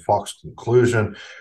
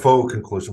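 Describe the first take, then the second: First: The final x in faux is sounded. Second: The final x in faux is silent. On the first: The speaker calls it wrong. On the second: The speaker calls it right.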